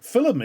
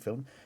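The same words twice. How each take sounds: First: The word is said with a Norfolk pronunciation. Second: The word is said with a standard pronunciation.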